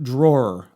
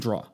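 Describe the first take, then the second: First: The word ends with a clear r sound. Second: The word ends without an r sound. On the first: "I've kind of tried to pronounce like" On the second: "I say draw"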